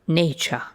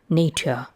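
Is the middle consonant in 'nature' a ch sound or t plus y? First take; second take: ch sound; t plus y. First: The t and y merge into a ch sound. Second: The t is followed by a separate y sound. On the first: This is the modern pronunciation. "replaced by an affricate" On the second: This is the older historical pronunciation. "t plus y"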